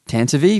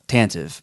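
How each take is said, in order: First: The final e is sounded as a vowel. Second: The final e is silent. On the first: This is how the name is said in the novelization. "there's no like accent mark or anything like that to, on the E" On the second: This is how the name reads in print. "I just always have read it"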